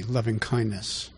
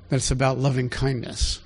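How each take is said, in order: First: Softer and slower, savouring loving; tender lingering. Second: Said in the usual way. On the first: Shown as a demonstration. Preacher dwelling on God's heart, soft and slow. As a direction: let loving kindness melt out gently.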